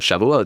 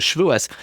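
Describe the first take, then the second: First: The word ends with a t sound. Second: The word ends with an s sound.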